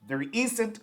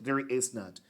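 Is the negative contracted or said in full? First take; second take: contracted; full. First: 'Is not' is shortened into one word. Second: 'Is not' is said as two full words. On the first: "There isn't is the contracted form" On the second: "there is not the long form"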